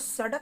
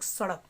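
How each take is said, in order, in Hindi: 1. बीच का व्यंजन सादा मूर्धन्य स्टॉप है। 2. बीच का व्यंजन तेज़ मूर्धन्य फ़्लैप है।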